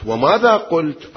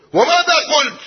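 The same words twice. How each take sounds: First: "وماذا قلت؟" slowed down and leaned on, every word deliberate; slow, weighty question. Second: Put-on "وماذا قلت؟" much higher and louder in a young girl's voice; insistent high repeat. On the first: Acted. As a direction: ask it slowly and pointedly. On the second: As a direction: press her father for the answer, voice rising. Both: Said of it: "عفية بنية، عفية تربية".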